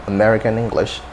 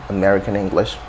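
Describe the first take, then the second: Both takes have the same delivery.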